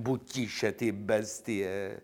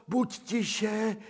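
First: Buď tiše said at normal pitch, slow and pleading; near-plain urgent hush. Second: Buď tiše cooed high and sing-song; sing-song hush to a lapdog; cooing hush. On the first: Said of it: "domlouvám jí honem". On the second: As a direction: hush the dog in high baby talk. Hushing the dog high. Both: Acted.

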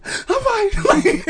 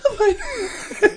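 First: Strained high wheeze, not fine; breathless. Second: High wheezy laugh-squeak; breathless. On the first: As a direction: choke out the words. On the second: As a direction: squeeze it out while laughing. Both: Retold or imitated. Gasping for air, clearly not fine.

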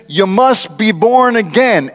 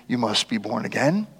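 First: Slow and a bit raised, "must" leaned on; emphatic quoted verse. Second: Much softer, trailing up at the end; soft quoted verse. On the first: Preacher stressing Jesus's verse to the crowd, slow and firm. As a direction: lay the verse down deliberately, hitting "must". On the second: Preacher quoting Jesus to Nicodemus, hushed and soft. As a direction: let the verse fall away gently. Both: Acted.

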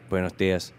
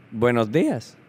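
First: Put-on lower, softer Spanish-accented reply; careful Spanish accent. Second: Lightly voiced greeter in Spanish; camp lady greeting. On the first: Shy kid answering the camp lady, low, soft Spanish accent. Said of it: "responds in a pitch-perfect accent". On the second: Camp lady greeting a new kid, lightly voiced Spanish hello. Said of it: "So she walks up".

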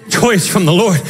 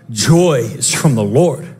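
First: Said in the usual way. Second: "Joy is from the Lord" said low and slow, leaning on "Joy"; weighty, slow declaration; low slow emphasis. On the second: Acted. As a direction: drop low and slow it right down. Preacher repeats the line twice.

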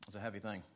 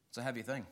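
First: Hushed repeat. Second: Said in the usual way. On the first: Shown as a demonstration.

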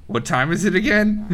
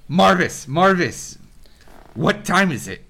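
First: Higher dwarf voice breaking into a laugh; dwarf cracking up as he cues his brother. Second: Higher, louder dwarf call to his brother; dwarf cueing his brother for a break. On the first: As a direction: ask it with a knowing giggle. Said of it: "He looks at Marvis and goes". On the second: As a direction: call out playfully to Marvis. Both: Acted.

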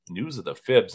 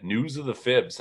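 First: "News of the fibs?" with a questioning rise; puzzled question. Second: Said in the usual way. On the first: Retold or imitated. Newcomer baffled by a radio segment, "News of the fibs?" rising in puzzlement.

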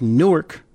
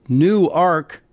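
First: Newark said short, as NOO-urk; New Jersey Newark. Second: Newark drawn out slowly as NOO-ark; Delaware Newark. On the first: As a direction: Newark squeezed into two quick syllables, NOO-urk. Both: Shown as a demonstration. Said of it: "it's pronounced Newark".

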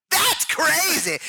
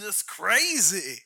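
First: High, drawn-out wrestler growl; hammed-up pro-wrestler catchphrase; Randy Savage. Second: Slow, drawn-out actor impression; Randy Quaid. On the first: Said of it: "Randy Savage post-death". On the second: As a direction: stretch it into a loopy drawl. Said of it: "We've got Randy Quaid".

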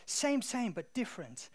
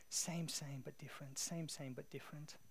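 First: Imitated Thai accent, starting high and loud; attempted Thai accent. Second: Soft, fading repetition; hushed echo. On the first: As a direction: repeat the catchphrase in an amateur Thai accent. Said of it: "That was the best accent I could do". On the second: Retold or imitated. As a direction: let the phrase echo quietly, dropping away. Catchphrase echoing in his mind.

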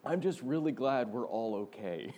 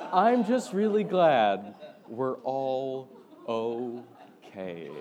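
First: Quote through laughter. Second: Slow drawn-out quote. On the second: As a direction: stretch every word out slowly and louder. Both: Retold or imitated. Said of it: "and I quote".

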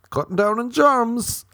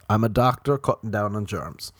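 First: High, loud silly boast; mock proclamation. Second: Said in the usual way. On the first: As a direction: belt it out like a daft superhero doctor. Mock boast of being a doctor.

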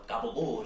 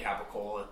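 First: "gabagool" with G and long ool; "gabagool", hard G, last vowel dropped; slang pronunciation. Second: Said in the usual way. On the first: Shown as a demonstration. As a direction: say capicola as "gabagool". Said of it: "Gabagool is more fun". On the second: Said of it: "it's not fun to say capicola".

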